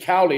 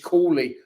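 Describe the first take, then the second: First: The first syllable has an 'ow' vowel. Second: The first syllable has an 'oo' vowel. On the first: The speaker calls it wrong. "you said Cowley" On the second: The speaker calls it right. "it's Cooley"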